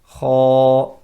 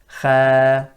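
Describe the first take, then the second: First: The letter is heavy, with sound rising upward. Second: The letter is light, with sound going downward. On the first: The speaker calls it right. "that's sound rising upwards" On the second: The speaker calls it wrong. "that's sound going downwards"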